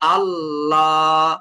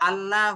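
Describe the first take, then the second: First: The L sound is heavy and full. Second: The L sound is light and thin. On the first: The speaker calls it right. "আল্লাহ লাম কিন্তু মোটা হবে" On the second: The speaker calls it wrong. "এখানে আল্লাহ হয়ে গেল আপনার উচ্চারণটা"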